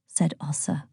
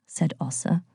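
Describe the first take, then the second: First: Narration tag kept in a whisper. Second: Said in the usual way. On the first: A narrator's reading. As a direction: stay in the hush for the tag.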